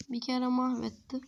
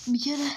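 First: Said in the usual way. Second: Emphatic. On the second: Acted. Repeated with emphasis.

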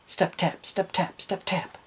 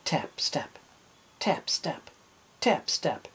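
First: Quick run of pairs without pauses, higher; running steps. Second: Soft, spaced-out footstep words; testing steps. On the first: Captain running on his peg leg, hurried patter. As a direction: patter the words along like running feet. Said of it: "Then he ran". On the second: Captain testing his peg leg, careful spaced steps. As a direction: place each pair carefully, with pauses between. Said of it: "He tested his peg leg". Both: A narrator's reading.

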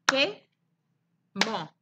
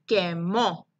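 First: "Quemó" broken as que, long pause, mó; rising first beat, falling second in "Quemó"; separate syllables. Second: "quemó" as one whole word, low, no gap; syllables joined. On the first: Teacher lets pupils count, "Quemó" syllable by syllable. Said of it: "¿Cuántas sílabas se escuchan?". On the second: Teacher combines syllables for pupils, "quemó" run together. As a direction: blend que and mó into "quemó". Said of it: "cuando las combinamos, dicen". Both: Shown as a demonstration.

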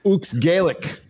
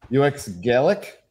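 First: "Ux Gaelic" with Ux run together as one word; second name attempt. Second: "U X Gaelic" with U and X as separate letters; unsure name reading. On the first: Host retrying a donor's name, "Ux Gaelic" with Ux as a word. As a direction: say the Ux in "Ux Gaelic" as one syllable, slowly. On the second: Host puzzling over a donor's name, "U X Gaelic" read as letters. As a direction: spell out the U X in "U X Gaelic", slowly, questioning. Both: Real, not acted. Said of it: "How do I say this name".

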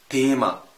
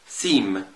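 First: تيما begun with a hard, louder T; German TH as T. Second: سيم begun with a lisped TH, lower pitch; English TH. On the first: Teacher showing German Thema, hard T opening تيما. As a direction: say تيما with plain T, H silent. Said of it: "بنطقه وكأنه تاء". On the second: Teacher contrasting English, TH sound opening سيم. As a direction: say سيم as English theme, tongue between teeth. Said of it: "هو حرف الثاء". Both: Shown as a demonstration.

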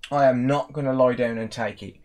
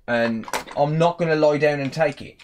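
First: "am" leaned on firmly, then the rest steady; stress on am. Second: Said in the usual way. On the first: Real, not acted. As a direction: dig in on "am". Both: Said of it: "repeats it with stress".

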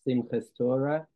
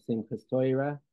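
First: "Simchas Torah" with s in "Simchas" and a plain o in "Torah". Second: "Simchas Torah" with "Torah" said as toy-ra. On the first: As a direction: say "Simchas Torah" with "Torah" as tor-ah, rising at the end. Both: Shown as a demonstration.

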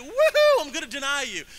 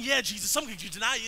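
First: High, loud whoop, then lively; hammed-up excited cheer; mock excitement. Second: Said in the usual way. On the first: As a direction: whoop it like gleeful good news. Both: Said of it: "It's not like he got excited".

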